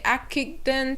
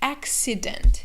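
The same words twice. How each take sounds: First: The two C's are not a K then an S. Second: The two C's are a K then an S. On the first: The speaker calls it wrong. "We don't say accident" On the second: The speaker calls it right. "So we say accident"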